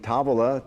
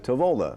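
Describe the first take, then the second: First: It is said with an Italian pronunciation. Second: It is said with an American pronunciation. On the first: "in Italian" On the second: "it's Americanized"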